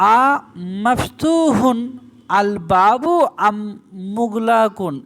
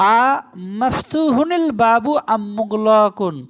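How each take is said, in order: First: Each word is said separately, with 'al' unlinked. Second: The ending runs into the next word as 'hunil'. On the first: The speaker calls it wrong. "এটা যদি পড়ি তো আমার ভুল হয়ে যায়" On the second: The speaker calls it right. "এই আল থাকার জন্য"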